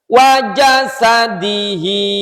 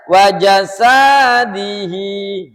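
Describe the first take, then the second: First: All the vowels are kept short. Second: One vowel is stretched out long. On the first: The speaker calls it right. "kita ajak baca pelan-pelan" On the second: The speaker calls it wrong. "ini kadang ada yang ingin dipanjangkan"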